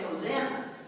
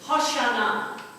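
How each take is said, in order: First: The middle consonant is an 's' sound. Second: The middle consonant is a 'sh' sound. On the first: This is the usual modern pronunciation. "We say Hosanna" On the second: This is the original pronunciation. "Hoshana is the way it is pronounced"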